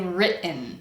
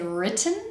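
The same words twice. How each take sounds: First: The middle T is a glottal stop. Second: The middle T is a fully released T. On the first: The speaker calls it right. "that sound I'm using to represent the T is a glottal stop" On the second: The speaker calls it wrong. "I don't say written"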